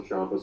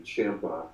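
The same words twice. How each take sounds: First: Ciampa said "CHOM-pa", with a broad ah; mispronounced name. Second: Ciampa said "CHAM-pa", rhyming with Tampa; corrected pronunciation. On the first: Wrestler slipping on a colleague's name, mispronounced as CHOM-pa. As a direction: say Ciampa to rhyme with "chomp-a". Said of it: "I still mispronounce his name". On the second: Wrestler correcting himself on a colleague's name, CHAM-pa. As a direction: say Ciampa with the short a of "champ". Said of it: "like Tampa". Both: Real, not acted.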